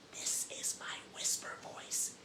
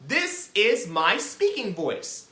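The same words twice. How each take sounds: First: Slow, very quiet whisper; hushed demonstration whisper. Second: Said in the usual way. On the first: Shown as a demonstration. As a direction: whisper it clearly for learners. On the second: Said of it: "we're gonna do our speaking voice".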